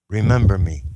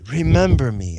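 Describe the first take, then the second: First: It is said as a gentle request. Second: It is said as a firm command.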